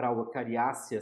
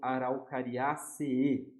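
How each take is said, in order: First: The ending has a single E sound. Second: The ending has two separate E sounds. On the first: This is the Portuguese form of the name. "a gente pode falar Araucariácea se a gente estiver escrevendo em português" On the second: This is the Latin form of the name. "A gente vai pronunciar duas vezes esse E"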